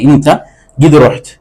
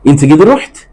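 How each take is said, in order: First: The voice falls at the end. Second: The voice rises at the end. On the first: It states that the listener has gone. "നീ പോയിട്ടുണ്ട് എന്നായി" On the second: It asks whether the listener has gone. "ഒരു ചോദ്യ രൂപത്തിൽ ചോദിച്ചാൽ മതി"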